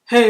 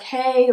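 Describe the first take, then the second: First: It is said briskly and casually. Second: It is said softly and warmly. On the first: The greeting is a hurried formality. "and not like" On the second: The greeting is sincere and personal. "like super soft and like super like genuine"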